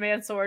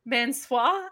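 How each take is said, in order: First: The name is said with a plain English accent. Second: The name is said with a fake French accent.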